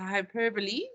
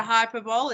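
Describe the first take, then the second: First: Hyperbole said as hy-PER-buh-lee; hyperbole with four syllables, ending in "lee"; corrected pronunciation. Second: Hyperbole said as HY-per-bowl; hyperbole ending in "bowl", three syllables; wrong pronunciation. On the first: Teacher giving the correct word, hyperbole as hy-PER-buh-lee. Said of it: "it's a hyperbole". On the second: Teacher correcting the class, hyperbole wrongly as HY-per-bowl. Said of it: "It's not a hyperbole". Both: Shown as a demonstration.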